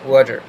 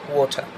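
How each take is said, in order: First: The word is said in an American accent. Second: The word is said in a British accent. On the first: "the American people will pronounce it as water" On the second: "এটা British অ্যাকসেন্টে we say it"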